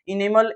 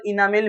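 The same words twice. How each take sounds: First: "इनेमल" with an e in the middle, short last vowel; variant pronunciation. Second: "इनामेल" with a long aa in the middle, ending -mel; variant pronunciation. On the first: Teacher giving students an alternative word form, "इनेमल" said i-ne-mal. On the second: Teacher giving students an alternative word form, "इनामेल" said i-naa-mel. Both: Shown as a demonstration. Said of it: "इनामेल भी लिख सकता है".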